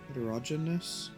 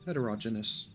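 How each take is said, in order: First: The word is said with one syllable dropped. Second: The word is said with all its syllables. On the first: The speaker calls it wrong. "It's missing a syllable, I feel like" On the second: The speaker calls it right. "I think that's it"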